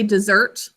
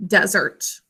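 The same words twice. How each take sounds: First: "desert" stressed on the second syllable, deSERT; verb stress deSERT. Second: "desert" stressed on the first syllable, DEsert; noun stress DEsert. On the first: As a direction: lean on SERT as in to leave behind. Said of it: "So if you use it as a verb". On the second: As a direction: hit DE as in the Saharan desert. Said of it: "talking about it as the noun". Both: Shown as a demonstration.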